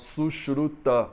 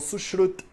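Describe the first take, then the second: First: The word ends with its final vowel pronounced. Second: The word ends without its final vowel. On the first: This is the theoretical textbook form. "É muito raro a pessoa falar Sushruta" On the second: This is how it is said in everyday practice in India. "ela fala Sushrut"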